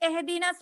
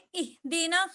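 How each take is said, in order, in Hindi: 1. पहला स्वर खुला 'eh' ध्वनि है। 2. पहला स्वर साफ़ 'ee' ध्वनि है। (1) "एहदीना से पढ़ेंगे तो वो मजहूल हो जाता" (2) "जेर को मारूफ पढ़ा जाए"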